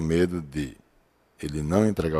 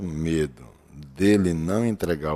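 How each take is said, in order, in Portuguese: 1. Há uma pausa curta entre 'de' e 'ele'. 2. 'De' e 'ele' se juntam, sem pausa.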